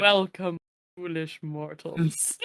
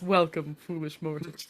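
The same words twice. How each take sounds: First: Low, slow, ominous welcome; spooky ghost host. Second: Spooky ghost host. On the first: Pretend. Haunted Mansion ghost host intro. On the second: Retold or imitated. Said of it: "that opening that starts when it's".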